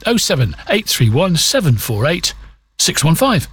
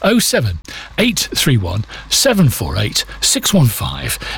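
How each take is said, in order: First: The number is read at normal speed. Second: The number is read slowly.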